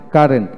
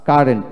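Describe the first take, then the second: No difference in how they are said.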